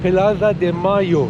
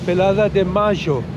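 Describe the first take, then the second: First: Mayo is said with a plain 'y' sound. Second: Mayo is said with a 'zh' sound.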